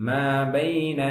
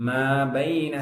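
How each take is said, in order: No difference in how they are said.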